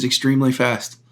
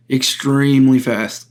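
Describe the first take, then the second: First: Said in the usual way. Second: "extremely" stretched out slowly for emphasis; emphatic repeat. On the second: Shown as a demonstration. Shooter boasting of quick magazine changes, "extremely" slowly emphasized. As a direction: draw out "extremely", leaning on each syllable.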